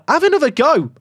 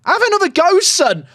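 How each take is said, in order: First: High, louder urging; excited urging. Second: Much higher, louder urging, rising at the end; rising excited cheer. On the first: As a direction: cheer him on to shoot again. Urging player to score again. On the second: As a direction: push him harder, near shouting. Urging player again, stronger. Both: Real, not acted.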